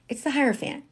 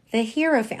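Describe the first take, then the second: First: Hierophant said as HIGH-ero-fant, pitched up; correct Hierophant. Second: Hierophant said wrongly as HERO-fant; mispronouncing Hierophant. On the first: Shown as a demonstration. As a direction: stress "high" at the start of Hierophant. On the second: Retold or imitated. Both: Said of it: "people pronounce that fucking word wrong".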